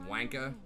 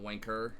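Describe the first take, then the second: First: The final R sound is dropped. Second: The final R sound is pronounced. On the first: The speaker calls it right. "No one pronounces the R. So it's like wanka" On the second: The speaker calls it wrong. "It's not wanker"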